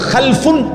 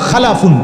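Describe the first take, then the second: First: No vowel is heard after the l. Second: A short a vowel follows the l. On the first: A bad, inferior generation. "যদি সাকিন হয় তাইলে হলো খালফুন" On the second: A good, excellent generation. "যদি লামের মধ্যে জবর হয় তাহলে হলো খালাফুন"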